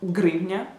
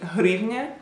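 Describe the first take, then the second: First: The word begins with a hard g sound. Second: The word begins with a soft h-like sound. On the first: "They would probably just say grivnia" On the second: "h like in hryvnia"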